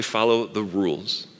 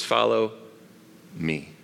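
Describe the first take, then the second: First: Slow, flat, mocking "Follow the rules"; dismissive quote. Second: Soft, drawn-out "Follow me", fading down; gentle invitation. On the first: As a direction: say "Follow the rules" slowly, as the wrong way. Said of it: "Jesus doesn't say". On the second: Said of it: "He says". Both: Shown as a demonstration.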